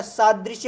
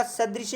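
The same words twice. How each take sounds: First: सादृश्य said slowly with a long first aa; right form. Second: सदृश्य said with a short first a; wrong form. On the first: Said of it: "सादृश्य होता है". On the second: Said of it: "सदृश्य नहीं होता है". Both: Shown as a demonstration.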